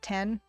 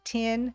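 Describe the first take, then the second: First: The vowel sounds like the one in 'ten'. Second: The vowel sounds like the one in 'tin'. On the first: "and not ten" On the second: "there's certain American accents that you can't tell the difference if they're saying tin or ten. They say it, you know, they say tin"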